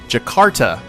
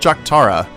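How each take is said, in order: First: The k sound comes before the r. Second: The k sound comes before the t. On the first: The speaker calls it right. "I was pronouncing it wrong" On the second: The speaker calls it wrong. "not Jaktara. I don't know why I was calling it Jaktara"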